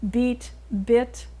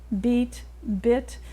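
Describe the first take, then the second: Both takes have the same delivery.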